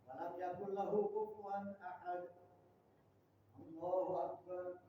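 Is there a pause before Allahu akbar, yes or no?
yes. A short pause comes before Allahu akbar.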